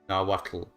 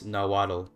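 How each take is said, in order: First: It is said with a native tl sound. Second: It is said with English sounds. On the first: "in Nahuatl it's pronounced" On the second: "is how you say it in English"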